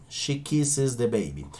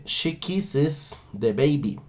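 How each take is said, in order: First: Quieter, quicker echo of the sentence; softer repeat. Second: Slow, careful "kisses" for learners; slow model sentence. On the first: Teacher repeats the model sentence softly after demonstrating. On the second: Teacher first models the sentence slowly and carefully. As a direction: dictate it slowly. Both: Shown as a demonstration. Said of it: "yo diré".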